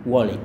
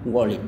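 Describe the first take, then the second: The two takes are said the same way.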